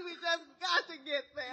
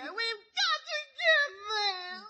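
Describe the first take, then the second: First: Said in the usual way. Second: Slow, high, wailing plea; hammed-up weeping, slow and pitched up; fake crying. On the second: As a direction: stretch the sob out to win him over. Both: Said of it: "Just stop crying".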